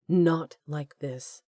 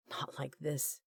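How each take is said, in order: First: "Not" stressed, slow and falling; slow firm repeat. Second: Hushed inner thought. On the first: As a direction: lean on "Not", drag the words out. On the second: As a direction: say it under the breath, inward. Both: A narrator's reading. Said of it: "his mind screamed".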